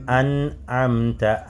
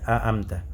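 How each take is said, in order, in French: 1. Le n est entendu avec résonance nasale. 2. Le son n est complètement supprimé. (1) "on doit ressentir" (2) "on ne va pas dire a amta"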